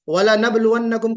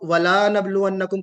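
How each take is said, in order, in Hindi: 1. 'la' का स्वर छोटा है। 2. 'la' का स्वर लंबा है। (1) "कि हम यकीनन आजमाएंगे" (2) "हर्फ को घटा देना, बढ़ा देना"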